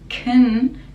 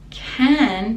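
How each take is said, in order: First: The vowel in 'can' is a reduced schwa. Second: The vowel in 'can' is full and clear.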